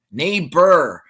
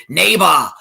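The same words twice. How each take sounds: First: Said in the usual way. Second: Austrian "Neighbor" with an open, unrolled final "ba"; Austrian accent. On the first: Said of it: "No, it's neighbor". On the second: Retold or imitated. Imitating Arnold saying "Neighbor" in an Austrian accent. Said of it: "in his Austrian accent".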